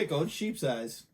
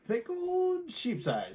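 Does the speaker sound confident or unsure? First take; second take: confident; unsure. First: It is said plainly and confidently. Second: It is said hesitantly, sounding unsure.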